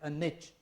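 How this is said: Niche is said in an American way.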